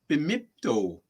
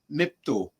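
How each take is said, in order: First: The word begins with an extra 'bi' syllable. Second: The word begins directly with 'mi', shortened. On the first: This is the form Ojibways tend to use. "with that B I emphasis on it" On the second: This is the form Odawas tend to use. "We will we will shorten"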